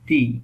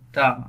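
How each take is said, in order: First: The vowel is a long 'ee', like 'thee'. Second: The vowel is short and neutral, like 'thuh'. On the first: The next word begins with a vowel sound. "ভাওয়াল sound হলে T H E এর উচ্চারণ হবে দি" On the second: The next word begins with a consonant sound. "Consonant sound হলে T H E এর উচ্চারণ হবে দা"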